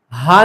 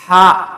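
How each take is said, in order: First: ہا said as a plain light h; wrong sound. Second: ہا said loud from the middle of the throat; pressed throat sound. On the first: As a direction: say ہا the wrong way on purpose. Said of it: "ہا نہیں پڑھنا". (غلط ہا، ہلکی آواز) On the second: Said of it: "اس طرح press کر کے". (گلے کی ہڈی دبا کر ہا) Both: Shown as a demonstration.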